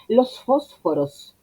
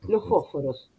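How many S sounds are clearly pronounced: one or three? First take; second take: three; one. First: All three S sounds are clearly pronounced. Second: Only the final S is clearly pronounced. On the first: "las tres fueron s, s, s" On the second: "La única S que decimos es la última"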